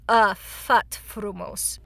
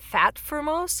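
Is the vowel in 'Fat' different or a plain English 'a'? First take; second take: different; plain. First: The first word has a different, accented vowel. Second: The first word has a plain English 'a' vowel. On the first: The speaker calls it right. "There's an accent over the A, and so it's not actually A" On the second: The speaker calls it wrong. "a lot of people mispronounce it Fat-Frumos because it looks like that"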